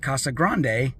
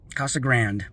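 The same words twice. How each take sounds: First: It is pronounced with Spanish-style sounds. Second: It is pronounced with English-style sounds. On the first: This is the proper pronunciation of the name. The speaker calls it right. "it should be Casa Grande" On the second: This is how locals actually say the name. The speaker calls it wrong. "but nope"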